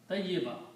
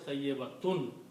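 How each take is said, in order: First: The word ends short on a plain vowel sound. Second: The word ends with a full 'tun' syllable. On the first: The speaker stops after this word. "When we stop, we pronounce tayyiba" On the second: The speaker goes on without stopping. "full word is tayyibatun"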